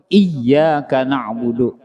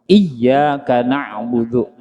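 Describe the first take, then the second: Both takes have the same delivery.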